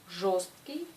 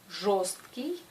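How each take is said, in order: The two takes are said the same way.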